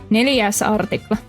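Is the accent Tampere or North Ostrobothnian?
North Ostrobothnian. It sounds like a monotone North Ostrobothnian dialect.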